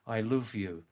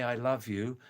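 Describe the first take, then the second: First: "love" said with a Scouse oo vowel, luv; Scouse accent. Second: Said in the usual way. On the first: Shown as a demonstration. Contrasting for viewers, "I love you" in a Scouse accent. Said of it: "That's Scouse accent". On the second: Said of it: "They don't say".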